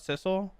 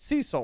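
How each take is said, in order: First: The name begins with a 'sis' sound. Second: The name begins with a 'see' sound. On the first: The speaker calls it wrong. "Not Sissel. Sorry for pronouncing it wrong" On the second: The speaker calls it right. "It's Cecil, right?"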